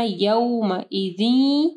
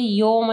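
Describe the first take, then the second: First: Slow यौमइदिन beginning with a gliding "yau"; यौमइदिन recited slowly, a gliding into w; madd leen. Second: यौम as a flat "yoma"; यौम quick, the glide missing; wrong vowel demo. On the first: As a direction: draw out यौमइदिन, ending on a long "ee". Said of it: "मद लीन आ रही है". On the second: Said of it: "यौम नहीं पढ़ना". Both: Shown as a demonstration.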